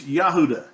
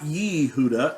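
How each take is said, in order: First: The first syllable has an 'ah' vowel. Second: The first syllable has an 'eh' vowel. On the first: The speaker calls it right. "it's Yahuda. ... The letter has the Yah sound" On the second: The speaker calls it wrong. "not Yehuda"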